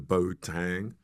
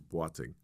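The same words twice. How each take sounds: First: The name is said with an American pronunciation. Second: The name is said with its Ghanaian pronunciation. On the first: The speaker calls it wrong. "the American pronunciation of my name is very distinct. They like the Boateng" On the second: The speaker calls it right. "the correct pronunciation is Boateng"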